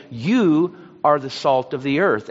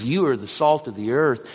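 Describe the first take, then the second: First: "You" punched harder and a bit louder; "You" and you alone, said with heavy stress. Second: You are the salt of the earth with "You" leaned on; quoted emphasis falling on "You"; stress on you. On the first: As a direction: hit "You" hard, as if underlined five times. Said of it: "The emphasis is placed on you". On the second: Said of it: "he's being emphatic there". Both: Shown as a demonstration.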